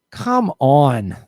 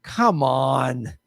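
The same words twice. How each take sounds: First: Exasperated. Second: Said in the usual way. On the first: Real, not acted.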